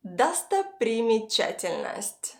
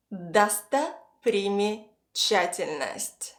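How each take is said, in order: First: Said in the usual way. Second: Достопримечательность slowly, in three separated chunks; piece by piece. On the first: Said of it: "piece it all together". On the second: Shown as a demonstration. Teacher repeats a hard word for learners, slowly chunked. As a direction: say Достопримечательность slowly with pauses after Досто and приме. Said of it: "try to piece it all together".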